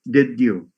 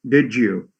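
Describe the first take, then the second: First: The d and y sounds stay separate. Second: The d and y sounds merge together. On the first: The speaker calls it wrong. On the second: The speaker calls it right.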